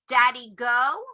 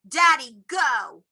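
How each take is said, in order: First: It is said with a questioning tune. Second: It is said with a commanding tune. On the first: The child is asking where the father went. "which means, where did Daddy go?" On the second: The child is telling the father to leave. "meaning get out of my room"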